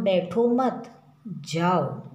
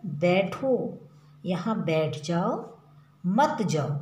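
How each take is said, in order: First: बैठो मत joined, then जाओ set apart slowly; pause after मत. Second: बैठो set apart, then मत जाओ as one phrase; pause after बैठो. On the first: Teacher voicing Umesh telling someone to go, pause after मत. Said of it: "जाने के लिए कह रहा है". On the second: Teacher voicing Geeta forbidding someone to go, pause after बैठो. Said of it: "जाने के लिए मना कर रही है". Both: Shown as a demonstration.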